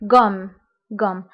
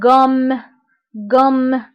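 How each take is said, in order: First: The m sound is short and light. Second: The m sound is pressed and held longer. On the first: "الا عندي غير ام وحده فغنطق" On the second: "كنضغط على هاد الام"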